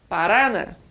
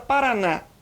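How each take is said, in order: First: The stress is on the middle syllable. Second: The stress is on the last syllable. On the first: "Se forte fosse o Ra" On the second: "o forte é o na"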